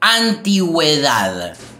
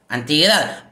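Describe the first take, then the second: First: The u after the g is pronounced. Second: The u after the g is silent. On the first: The speaker calls it right. "digo antigüedad" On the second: The speaker calls it wrong. "Si yo no tuviera la diéresis"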